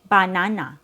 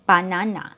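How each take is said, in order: First: Every syllable has a full, equally strong vowel. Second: Every syllable has a full, equally strong vowel.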